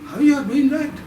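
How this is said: The sentence is spoken in a doubtful tone. "Then doubt"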